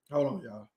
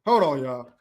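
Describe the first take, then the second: First: Quiet aside to the chat while checking his phone; softly telling the chat to wait; lowered, muttered hold on. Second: Said in the usual way. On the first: Real, not acted. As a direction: drop low and soft, half to himself.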